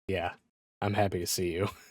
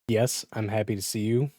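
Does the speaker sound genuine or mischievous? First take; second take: mischievous; genuine. First: It sounds mischievous and menacing. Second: It sounds genuinely happy.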